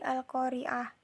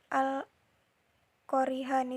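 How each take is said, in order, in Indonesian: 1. Kata itu berakhir dengan bunyi h yang lembut. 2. Kata itu berakhir dengan suku kata penuh dan -an.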